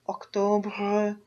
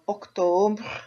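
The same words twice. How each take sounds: First: The final R sound is strong. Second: The final R sound is weak.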